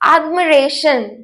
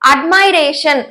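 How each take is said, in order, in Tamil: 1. இரண்டாவது எழுத்து 'mih' போல ஒலிக்கிறது. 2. இரண்டாவது எழுத்து 'my' போல ஒலிக்கிறது. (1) "இதோட உண்மையான ப்ரொனன்சியேஷன்" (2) "நிறைய பேர் வந்து தப்பா ப்ரொனவுன்ஸ் பண்ணுவாங்க"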